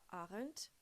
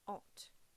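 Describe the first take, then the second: First: The word is said with an R sound. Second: The word is said without an R sound. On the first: The speaker calls it wrong. "ça se prononce pas aren't" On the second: The speaker calls it right. "ça se prononce aren't. ... supprimez le R et le E et prononcez A N T"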